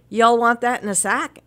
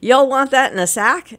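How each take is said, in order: First: Southern clerk imitation. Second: Light mock southern accent, higher and louder; southern clerk imitation. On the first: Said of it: "she'd say". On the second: Imitating a Maryland grocery clerk asking about bagging, mock Southern accent. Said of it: "they said".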